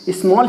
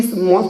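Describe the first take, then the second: First: Said in the usual way. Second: स्मॉल broken as इस, मॉल; wrongly split word. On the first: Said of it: "स्मॉल ही कहेंगे". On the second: Shown as a demonstration. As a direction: show स्मॉल wrongly cut into two bits. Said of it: "थोड़ी कहेंगे". (स्मॉल को गलत तरीके से इस-मॉल तोड़कर)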